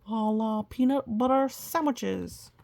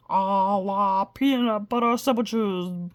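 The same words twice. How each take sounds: First: Said in the usual way. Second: Slow, grand magic words; magic incantation. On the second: Acted. Mumford casts his magic phrase over the violin, slow and grand. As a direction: intone it like a spell. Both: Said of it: "the magic phrase".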